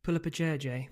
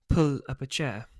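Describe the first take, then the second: First: Calling out. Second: Louder, sharp telling-off; stern snap. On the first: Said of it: "Mum calls". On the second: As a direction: snap it at a dawdling child. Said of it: "Mum snaps". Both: Acted.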